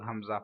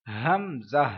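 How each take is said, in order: First: हमजा said plainly, soft h; the common wrong हमजा; wrong hamza. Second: हमजा with throaty ha at start and end; correct hamza. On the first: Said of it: "हमजा नहीं है". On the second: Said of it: "शुरू में भी हा है". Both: Shown as a demonstration.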